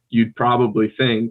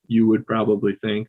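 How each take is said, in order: First: The words are contracted into one syllable. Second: Both words are said separately in full. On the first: ""you'd" is um, also really common" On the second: "that's like it's "you would.""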